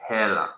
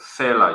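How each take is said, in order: First: The word begins with an h sound. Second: The word begins with an f sound. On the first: This is how it is said in Botswana. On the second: This is how it is said in South Africa. "instead of, you know"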